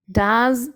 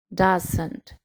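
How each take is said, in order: First: "Does" said clearly with a rising end; careful pronunciation. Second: "doesn't" said softer with a falling end; careful pronunciation. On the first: Teacher modelling "Does" with a rise for students. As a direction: model "Does" slowly for the class. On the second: Teacher contrasting "doesn't" with a fall for students. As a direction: model "doesn't" softly and falling for the class. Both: Shown as a demonstration. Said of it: "Escuchen bien la pronunciación".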